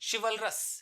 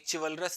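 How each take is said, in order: First: The word begins with an sh sound. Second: The word begins with a ch sound. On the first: The speaker calls it right. "ये श जैसे pronounce होगा" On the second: The speaker calls it wrong. "इसे ची नहीं बोलेंगे, चिवलरस नहीं बोलेंगे"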